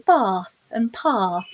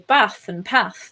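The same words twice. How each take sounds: First: A southern English accent with long vowels. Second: A northern English accent with short vowels.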